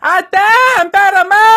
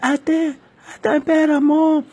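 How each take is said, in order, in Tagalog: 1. Malakas ang pagkakasabi, parang sigaw. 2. Mahina ang pagkakasabi, halos walang boses. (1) "Tuloy ako sumigaw" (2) "parang nawala ang aking boses"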